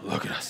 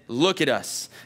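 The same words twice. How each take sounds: First: It is said in a gruff Batman voice. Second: It is read in a normal voice.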